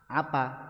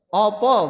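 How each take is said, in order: First: Both vowels are said as a. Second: Both vowels are said as o. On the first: "bahasa Indonesia juga kan apa?" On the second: "Opo bahasa Jawa"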